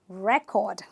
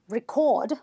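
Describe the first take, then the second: First: The stress is on the first syllable. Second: The stress is on the second syllable. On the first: The speaker calls it right. "I stress the first syllable" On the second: The speaker calls it wrong. "Not record"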